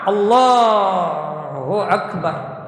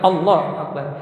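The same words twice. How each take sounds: First: The phrase is drawn out long. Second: The phrase is said short and quick.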